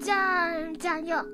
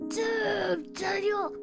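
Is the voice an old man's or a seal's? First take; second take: seal; old man. First: It is said in a seal-like voice. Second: It is said in an old man's voice.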